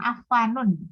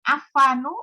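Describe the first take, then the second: First: The name ends in an -un sound. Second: The name ends in a bare -u sound. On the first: The speaker calls it wrong. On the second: The speaker calls it right. "dia tidak tanwin di ujungnya"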